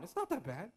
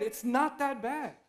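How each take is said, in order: First: Quiet, dismissive brush-off with a rising end; a light mock of a casual friend. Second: Slow, self-soothing excuse; a mild rationalising murmur; inner excuse. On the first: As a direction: wave the worry away softly. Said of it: "they also tell you". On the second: Retold or imitated. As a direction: talk yourself into it, slowly. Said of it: "In your head".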